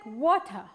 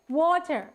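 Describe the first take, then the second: First: The word ends without any r sound. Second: The word ends with an audible r sound. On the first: "if you try to speak in the British accent" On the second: "ඔයාලට R ශබ්දත් එක්ක ඇහෙනවා ඇති water"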